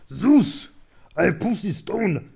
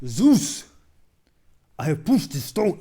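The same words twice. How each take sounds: First: Much louder and higher, slow and strained hero voice; Kratos impression. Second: First try at a big mythic shout, much louder and higher; Sisyphus voice. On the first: Streamer's announced Kratos take, loud slow strained roar. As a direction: roar it at Zeus like a furious god-killer. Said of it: "I'm gonna do my best Kratos impression". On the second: Acted. Streamer reading the meme to Zeus, loud mythic shout. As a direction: belt it out to the god, booming.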